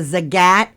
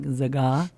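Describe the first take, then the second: First: The name ends with a clear T sound. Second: The name ends without any T sound.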